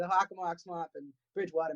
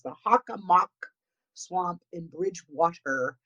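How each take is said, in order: First: Natural pace, with a strong New England accent. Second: Slow and careful, with a mild New England accent. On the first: "Or as I say" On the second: "I'm going to say it a little bit slower. Try not to let my New England accent infect it too much"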